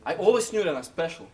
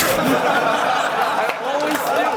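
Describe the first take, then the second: First: Said in the usual way. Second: Loud, high, very slow yell; drawn-out shout. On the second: Real, not acted. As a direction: stretch the words into a full shout. Retakes it after coach urges intensity.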